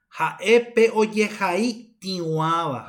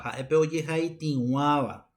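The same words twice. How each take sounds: First: Slow dictation; slow model phrase. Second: Said in the usual way. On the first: Shown as a demonstration. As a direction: dictate Jaepe oye jai tiwaba slowly to the class.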